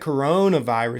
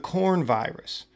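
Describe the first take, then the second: First: The word starts with the three syllables co-ro-na. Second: The word starts with the single syllable corn. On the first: The speaker calls it wrong. "everybody's pronouncing it wrong" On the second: The speaker calls it right. "It's the corn virus"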